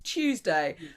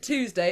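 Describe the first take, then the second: First: The word begins with a 'ch' sound. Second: The word begins with a plain 't' sound. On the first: The speaker calls it right. "it's Tuesday" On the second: The speaker calls it wrong. "isn't Tuesday"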